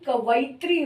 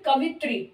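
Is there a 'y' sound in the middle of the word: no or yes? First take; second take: yes; no. First: It is said kavayitri, with a y sound. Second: It is said kavitri, without a y sound. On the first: The speaker calls it right. "लेकिन कवयित्री होता है" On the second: The speaker calls it wrong. "कवित्री बोलने में ये आवाज आती है, लेकिन कवयित्री होता है"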